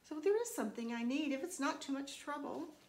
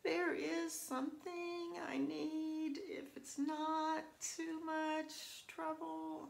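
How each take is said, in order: First: It is said in a slightly apologetic, polite tone. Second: It is said in a whiny, overly apologetic tone. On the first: The speaker knows the request is a bit of trouble. The speaker calls it right. "a slight apologetic tone" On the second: The speaker sounds like they are complaining. The speaker calls it wrong. "that sounds like I'm being a big whine box"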